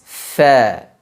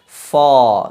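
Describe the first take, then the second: First: The letter is said light and thin. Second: The letter is said heavy and thick. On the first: The speaker calls it right. "akan menghasilkan huruf yang tipis" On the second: The speaker calls it wrong. "tidak dibenarkan huruf fa dibaca dengan tebal"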